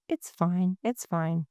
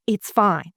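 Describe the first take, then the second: First: Softer, gentle reassurance; kind, hushed comforting tone; soft and warm. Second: Brisk, sharp demo of it's fine; curt, firmly voiced dismissal. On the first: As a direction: say it softly to soothe a friend. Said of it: "the tone really, really matters". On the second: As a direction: say it crisply and firmly, as if brushing them off. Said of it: "that's a whole lot different". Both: Shown as a demonstration.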